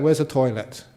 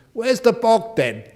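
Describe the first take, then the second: First: Said in the usual way. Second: Put-on broad Yorkshire accent, called out high and loud; thick Yorkshire accent. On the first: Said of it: "If you understand". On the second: Yorkshire student asking for the toilet on arrival, in a broad Yorkshire accent. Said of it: "he said in such a thick accent".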